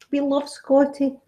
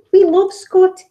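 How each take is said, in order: First: Said in the usual way. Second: Higher and louder, eager insistence; emphatic. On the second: Real, not acted. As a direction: sell it with a bright, insistent burst. Insisting Scots love Scotty.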